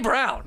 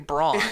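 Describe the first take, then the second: First: It sounds exactly like the color brown. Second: It is read the way the spelling suggests. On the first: The speaker calls it right. "We say Brown" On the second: The speaker calls it wrong. "we don't say Braun"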